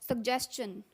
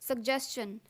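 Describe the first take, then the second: Both takes have the same delivery.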